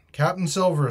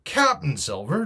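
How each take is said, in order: First: Higher, projected announcement; shouting. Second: Higher questioning echo, rising at the end; incredulous cry. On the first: Mutineer announces his new captain to the stockade, shouting. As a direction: call out the name formally. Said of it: "he shouted". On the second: Captain questions the mutineer's title for Silver, incredulous cry. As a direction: throw the name back as a question. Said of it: "cried the captain". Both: A narrator's reading.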